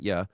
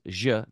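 First: The sound is like an English y. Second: The sound is like an English j. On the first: This is not how it is said in Colombia. The speaker calls it wrong. "not ya" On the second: This is how it is said in Colombia. The speaker calls it right. "they pronounce the double L differently in Colombia. It's je"

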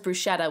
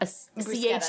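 First: The middle consonant is a soft SH sound. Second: The middle consonant is a hard K sound. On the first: This is how most people say it. The speaker calls it wrong. "which everyone says bruschetta" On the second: This follows the Italian spelling rule. The speaker calls it right. "CH in Italian is a hard K"

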